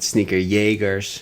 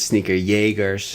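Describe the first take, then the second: First: It is said with a German pronunciation. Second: The same.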